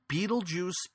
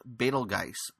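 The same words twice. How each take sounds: First: It is said differently from the way it's spelled. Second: It is said the way the spelling suggests. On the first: The speaker calls it right. "Betelgeuse is the correct pronunciation for this" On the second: The speaker calls it wrong. "it looks like it's pronounced Betelgeuse, but that is not the correct pronunciation"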